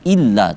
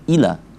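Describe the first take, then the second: First: The l sound is doubled and held. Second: The l sound is single and short. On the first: The speaker calls it right. "kenapa kita baca illa" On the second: The speaker calls it wrong. "tidak kita baca ila"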